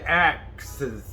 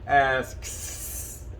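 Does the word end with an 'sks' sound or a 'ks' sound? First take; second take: ks; sks. First: The word ends with a k-s sound. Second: The word ends with an s-k-s sound. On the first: "some people say axes" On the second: "I can say that too. Everybody gets it"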